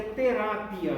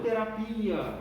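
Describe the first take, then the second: First: "terapia" with stress on the RA, te-RA-pia. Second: "terapia" with stress on the PI, te-ra-PI-a. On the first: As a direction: say "terapia" stressing the middle A, not the final I. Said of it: "a pronúncia aí é terapia". ("terapia" com a tônica no RA) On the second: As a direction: say "terapia" leaning on a long I near the end. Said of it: "a pronúncia aí é terapia, e não terapia". ("terapia" com a tônica no PI) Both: Shown as a demonstration.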